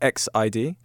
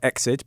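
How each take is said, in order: First: The name is said letter by letter. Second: The name is said as one word. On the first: The speaker calls it right. "which is apparently how you say that" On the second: The speaker calls it wrong. "Not Exit"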